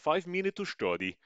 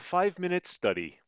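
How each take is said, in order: First: It is said in a put-on Russian accent. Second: It is said in the speaker's ordinary accent.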